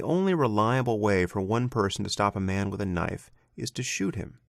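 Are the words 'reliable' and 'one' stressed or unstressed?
unstressed. Reliable and one carry no special stress.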